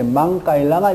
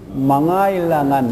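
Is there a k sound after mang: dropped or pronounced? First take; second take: pronounced; dropped. First: A k sound is pronounced after mang. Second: The k sound is dropped after mang. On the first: The speaker calls it wrong. "망 다음에 까일랑한 이렇게 나와야 되는데 K가 생략되니까" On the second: The speaker calls it right. "K가 생략되니까 어떻게 발음해야 됩니까? 망아일랑한 이렇게 돼요"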